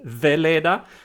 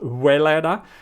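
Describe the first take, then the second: First: The name begins with a V sound. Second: The name begins with a W sound. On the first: The speaker calls it right. "so I pronounce it Veleda" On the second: The speaker calls it wrong. "not Weleda"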